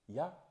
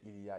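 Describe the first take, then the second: First: The short form is said, with 'il' dropped. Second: The full form is said, with 'il' pronounced. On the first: This is casual, everyday French. "if you want to talk like any Parisian or any real French people, you just say y a" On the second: This is careful, proper French. "if you're talking a very good French, yeah, in that case you say il y a"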